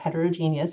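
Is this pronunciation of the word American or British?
American. The word is said with an American pronunciation.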